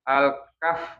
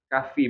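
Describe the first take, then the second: First: The word ends on a voiceless f with no vowel. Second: The word ends on f followed by an i vowel. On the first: "kafnya itu disukunkan" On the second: "Boleh sih kalau menyebutkan surat Al-Kahfi"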